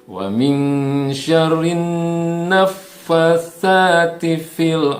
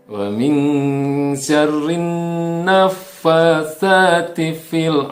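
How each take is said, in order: The two takes are said the same way.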